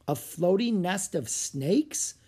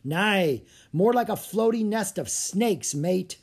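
First: "floating nest of snakes" drawn out, rising on "snakes"; slow, questioning lift on "snakes"; incredulous echo question. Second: Higher-pitched sailor's warning, a touch of dread; mildly spooked, emphatic correction; with a shudder. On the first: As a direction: ask "floating nest of snakes" slowly, voice climbing at the end. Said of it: "Annie asked". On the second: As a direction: shudder lightly at "floating nest of snakes", ending on a fall. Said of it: "said Tommy with a shudder". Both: A narrator's reading.

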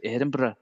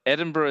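First: "Edinburgh" as refined Scottish "Edinbra"; genteel Edinburgh accent; posh Scottish accent. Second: Said in the usual way. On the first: Shown as a demonstration. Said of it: "kind of posh". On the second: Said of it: "a lot more kind of posh".

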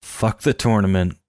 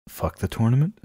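First: Retold angry line at normal volume; lightly acted pissed-off dismissal; understated mock anger. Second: Mock disbelief, pitched up; aghast. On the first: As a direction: play at being fed up, without raising the voice. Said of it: "gets really pissed and says". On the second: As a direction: echo it as if you can't believe it. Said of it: "Walter's aghast".

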